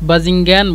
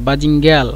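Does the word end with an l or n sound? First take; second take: n; l. First: The word ends with an n sound. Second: The word ends with an l sound. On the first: Some people say it this way. "কিছু মানুষ বাজিঙ্গান বলে" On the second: Other people say it this way. "এই নুনকে লাম বানিয়ে দেয়"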